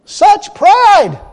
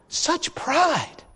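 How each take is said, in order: First: High, loud cry of condemnation; loud indignation. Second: Soft, hushed, lowered disdain; quiet disgust. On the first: Preacher denouncing the woman's pride, loud indignant cry. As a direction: proclaim it to the whole church. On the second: Preacher condemning the woman's pride, hushed disgust. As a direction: say it under your breath, appalled. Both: Real, not acted.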